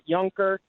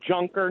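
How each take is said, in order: First: The name gets its native-style pronunciation. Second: The name gets an English-style pronunciation. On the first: This is how the name is actually said. The speaker calls it right. "not Junker" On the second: This is how unfamiliar Americans would read the name. The speaker calls it wrong. "If people saw his name, they'd call him Junker"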